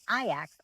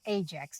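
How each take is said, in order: First: The name is pronounced the Greek way. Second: The name is pronounced the English way.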